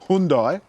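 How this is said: It is said in an American accent.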